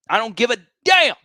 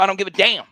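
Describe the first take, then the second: First: "damn" hit higher and louder; louder defiance. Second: Higher and louder, defiant. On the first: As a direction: punch the word "damn". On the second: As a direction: throw it out defiantly. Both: Real, not acted.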